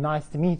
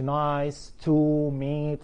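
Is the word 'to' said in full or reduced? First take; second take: reduced; full. First: The word 'to' is weak and linked. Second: The word 'to' is said in full, unreduced. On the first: The speaker calls it right. "في بعض ال prepositions تبقى weak في داخل الجملة" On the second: The speaker calls it wrong. "ما بقولش nice to meet"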